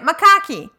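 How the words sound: The word has a Brazilian Portuguese style pronunciation. "That I say wrong. I read it macaque. ... because I'm reading it Brazilian"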